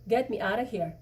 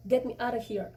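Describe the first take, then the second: First: Said in the usual way. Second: Through clenched teeth. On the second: Acted. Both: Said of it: "I rehearsed through clenched teeth".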